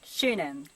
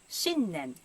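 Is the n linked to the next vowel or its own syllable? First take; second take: linked; separate. First: The n runs into the following vowel. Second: The n is held as its own syllable. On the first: The speaker calls it wrong. "It's not shunen" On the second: The speaker calls it right. "but 新年"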